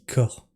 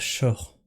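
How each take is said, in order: First: The word begins with a 'k' sound. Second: The word begins with a 'sh' sound. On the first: The speaker calls it right. "ça se dit corps" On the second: The speaker calls it wrong. "ça se dit pas shore"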